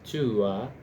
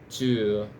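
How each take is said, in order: First: It is said in the traditional RP way. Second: It is said in the modern RP way. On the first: "in the R P pronunciation tua" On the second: "in the modern uh, R P you have something like two two instead of tua"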